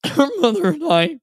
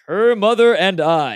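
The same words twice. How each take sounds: First: High, teary, voice catching; choked up. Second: Louder, slow, booming mock-solemn line; joking loud. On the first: Retold or imitated. Dad giving away his daughter, choked up. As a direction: hold back tears on the line. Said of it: "he was all choked up". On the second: Dad jokes through the rehearsal line, booming. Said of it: "kinda joking around, saying it loud".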